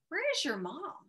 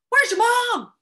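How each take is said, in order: First: It is asked with a questioning tune. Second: It is yelled loudly with urgency. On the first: It is a real question. "It would have to be a question mark" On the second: It is an emergency. "Might have to yell that"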